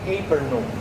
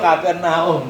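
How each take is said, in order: First: The name is pronounced with English sounds. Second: The name is pronounced with Tagalog sounds. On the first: This is how an online pronunciation tool says it. "pag sinabi mo sa Google yon, pronounce" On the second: This is how local speakers say it. "tayo Capernaum, di ba? Tagalog"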